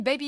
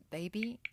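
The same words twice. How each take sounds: First: Said in the usual way. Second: Put-on BABY echoed softly as a question, voice rising; BABY said quietly with a puzzled rising end; self-questioning BABY. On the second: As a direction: catch yourself and query the word BABY. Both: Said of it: "Why am I calling you baby?".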